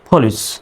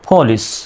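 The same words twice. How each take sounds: Both takes have the same delivery.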